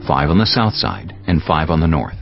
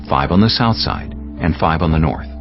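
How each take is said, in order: Both takes have the same delivery.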